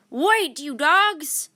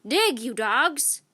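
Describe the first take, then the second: First: Captain wading after his crew; slow loud yell. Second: Slow, louder pirate order; captain ordering his crew; cried. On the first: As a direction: drag out a loud desperate yell. Captain chasing the boat. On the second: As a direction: drag out the order, loud. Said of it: "cried Captain Bones". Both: A narrator's reading.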